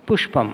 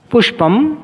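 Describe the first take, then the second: First: पुष्पं said lower and softer with a falling end; पुष्पं as a closing echo, lower and softer; falling repeat. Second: पुष्पं said higher and louder with a rising end; पुष्पं as a rising prompt, higher and louder; rising model word. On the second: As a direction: call out पुष्पं with the tone going up. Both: Shown as a demonstration. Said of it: "अनुकरण वाचन विधि से".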